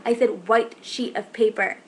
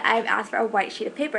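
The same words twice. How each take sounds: First: White stressed in a slow, deliberate correction. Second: Said in the usual way. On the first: Retold or imitated. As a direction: spell it out slowly, leaning on white. Retold correction of misheard word.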